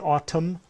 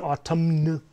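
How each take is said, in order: First: The word ends with an 'm' sound and no 'n' sound. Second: The word ends with an audible 'n' sound. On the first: The speaker calls it right. "We say autumn. Right, the N over here is silent" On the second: The speaker calls it wrong. "we don't say autumn"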